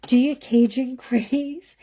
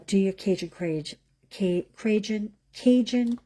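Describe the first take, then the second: First: "Cajun craze" said clearly, louder and higher, with a laugh; amused, emphatic second go at "Cajun craze"; tongue-twister retry. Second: Stumbling through "Cajun craze" like a tongue-twister; tongue-tied stumble. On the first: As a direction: punch out "Cajun craze" after tripping on it. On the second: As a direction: trip over "Cajun craze", restarting the word "Cajun". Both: Real, not acted. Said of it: "say that five times fast".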